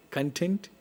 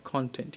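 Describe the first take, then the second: First: "content" as kun-TENT; verb pronunciation of content. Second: "content" as KON-tent; noun pronunciation of content. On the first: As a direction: reduce the first vowel of "content" to "kun". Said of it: "use this, content and content". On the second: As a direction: give "content" a full open o in CON. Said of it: "as a noun you've been using". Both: Shown as a demonstration.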